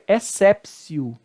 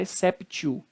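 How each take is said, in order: First: The middle consonant is an S sound. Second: The middle consonant is a hard T sound. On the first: The speaker calls it right. "agora a correta pronúncia, que seria exceptio" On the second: The speaker calls it wrong. "Você não pode falar exceptio"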